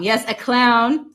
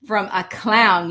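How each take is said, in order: First: "clown" again, louder, slower, with a rising tune; emphatic repeat. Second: Said in the usual way. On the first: Real, not acted. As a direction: lean hard on "clown" as if to say yes, really.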